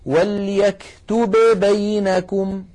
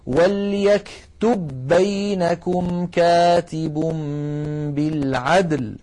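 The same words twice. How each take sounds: First: "وليكتب بينكم" with the ba of "وليكتب" released before "بينكم", slowly; wrong, unmerged "وليكتب بينكم"; separated ba sounds. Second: "وليكتب بينكم" with one doubled ba, very slowly; merged ba sounds. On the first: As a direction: say the two ba sounds apart. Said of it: "فالعرب أبدا ما تقول". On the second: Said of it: "بل يقولون". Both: Shown as a demonstration.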